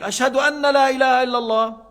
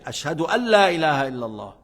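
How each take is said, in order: First: The word after Ashhadu is the longer 'anna'. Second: The word after Ashhadu is the short 'an'. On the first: The meaning is left unfinished. The speaker calls it wrong. "Le sens n'a pas terminé" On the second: The statement of faith is complete. The speaker calls it right. "C'est comme ça qu'on fait"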